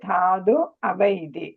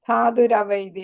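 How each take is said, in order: First: The words are said apart without an r sound. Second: The words run together with an added r sound. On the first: "പിരിച്ചു വായിക്കുകയാണെങ്കിൽ" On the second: "ഒരുമിച്ച് വായിക്കണം"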